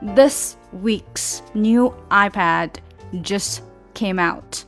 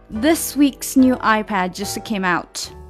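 First: The sentence is said slowly with every sound clear. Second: The sentence is said quickly with the t dropped. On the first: "你如果读的是这样慢的速度的话" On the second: "你一定是因为读快了所以才把它省略的"

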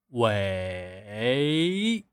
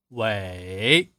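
First: The dip-rise tone is exaggerated and slow. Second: The dip-rise tone is said at normal speed.

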